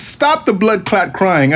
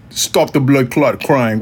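First: Said in the usual way. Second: Slow, put-on Jamaican accent. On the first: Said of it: "let me get my [name]". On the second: Shown as a demonstration. Telling complainers to quit crying, in a fake Jamaican accent. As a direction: badly imitate a Jamaican dancehall voice. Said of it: "let me get my [name], uh, vocal".

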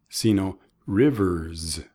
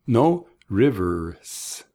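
First: "rivers" ending in a buzzed z like a bee, slow; buzzing final z. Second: Rivers with a hissed s like a snake; wrong s sound. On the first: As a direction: stretch out "rivers" and voice the z at the end. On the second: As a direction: end "rivers" on a sharp voiceless s. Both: Shown as a demonstration. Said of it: "Como si fuera una Z al fin".

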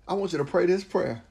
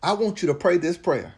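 Both takes have the same delivery.

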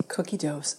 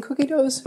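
First: Softer, muttered repeat of a slip; quietly echoing the slip Cookie doughs with a groan; annoyed self-repeat. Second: Said in the usual way. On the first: Real, not acted. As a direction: mutter your own mistake back, annoyed.

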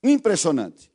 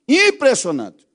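First: Said in the usual way. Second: "impressionante" said slower, higher and louder; outraged repeat of "impressionante"; emphatic repeat. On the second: Shown as a demonstration. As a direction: lean hard into "impressionante" and stretch it out. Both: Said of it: "repeated impressionante".

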